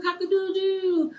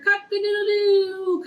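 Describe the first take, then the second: First: High crow that falls away at the end; softer rooster crow. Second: Crowed much higher and louder, like a real rooster. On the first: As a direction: let the crow drop off gently. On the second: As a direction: belt it out like a rooster at dawn. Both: Shown as a demonstration. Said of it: "Please say the songs and the s-, sounds along with the animals".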